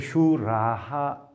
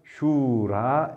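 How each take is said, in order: First: The word ends with a breathy 'ha' echo. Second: The word ends on the vowel without 'ha'. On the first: The word stands at the end of a phrase. "끈을 읽을 때는 이렇게 슈라하 읽어야 됩니다" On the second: A voiced sound follows, so the final sound drops. "슈라하가 아니라 슈라 이렇게 되고 있습니다"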